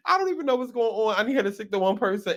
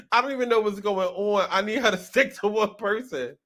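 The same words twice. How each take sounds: First: Rattled off fast. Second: Said in the usual way. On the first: Shown as a demonstration. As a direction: rush the repeat quickly. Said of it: "repeats the line faster". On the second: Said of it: "repeats the line".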